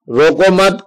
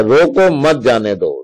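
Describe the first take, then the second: First: "रोको मत" as one phrase, higher, break after मत; group रोको with मत, then stop for the comma; pause after मत. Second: Slow, break after "रोको", then "मत जाने दो" together; pause after रोको. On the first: Teacher showing pupils where the comma falls, pause after मत. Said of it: "कॉमा लगा दिया". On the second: Teacher showing pupils the moved comma, pause after रोको. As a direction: set रोको apart, join मत to जाने दो. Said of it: "रोको के बाद यदि कॉमा लगा दिया". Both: Shown as a demonstration.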